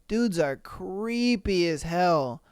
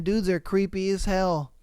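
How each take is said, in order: First: "creepy" drawn out slowly for emphasis; slow emphatic repeat. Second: Said in the usual way. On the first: Real, not acted. Reacting to stories of creepy men, "creepy" slow and stressed. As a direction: stretch out "creepy", weary and deliberate.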